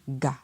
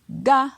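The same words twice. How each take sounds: First: The syllable is said on a low tone. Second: The syllable is said on a high tone. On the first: "avec un ton bas" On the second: "avec un ton haut"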